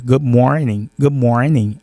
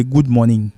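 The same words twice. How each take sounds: First: "Good morning" with "good" pushed from the throat, a short rounded "go" and a fast "morning"; throat-voiced good morning. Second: "good morning" with a plain French "gud", no throat in it, spoken as the mistake; wrong pronunciation. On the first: Teacher contrasts the right throat sound with the wrong one, throat-voiced. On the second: Teacher shows students the mistake to avoid, plain French-style "gud". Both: Shown as a demonstration. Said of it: "au lieu de good morning".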